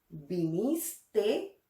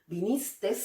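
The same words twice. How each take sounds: First: The word ends without an extra s sound. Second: The word ends with an extra s sound. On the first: The speaker calls it right. "Lo correcto es pronunciarlas sin la S final" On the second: The speaker calls it wrong. "algunas personas pronuncian estas palabras con una S al final"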